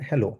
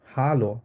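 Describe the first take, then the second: First: হ্যালো with English h-e vowel, like hello. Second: হ্যালো said as German hallo, open ah. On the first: Teacher shows students English হ্যালো, as heh-lo. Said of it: "আমরা ইংলিশে বলি হচ্ছে". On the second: Teacher shows students German হ্যালো, as hah-lo. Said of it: "But German আমরা বলি হচ্ছে হ্যালো". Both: Shown as a demonstration.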